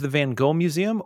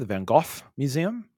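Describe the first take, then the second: First: Van Gogh has an English-style pronunciation. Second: Van Gogh has a Dutch-style pronunciation. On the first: The speaker calls it wrong. "been saying it wrong the entire time" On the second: The speaker calls it right. "as we learned on the audio tour"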